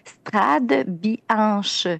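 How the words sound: The name is pronounced with French sounds. "si on le lit en français"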